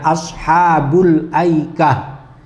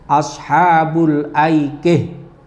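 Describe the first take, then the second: First: The final syllable ends with an open 'ah' sound. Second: The final syllable ends with a fronted 'ih' sound. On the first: "Misalnya ashabul aikah" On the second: "kalau berhenti"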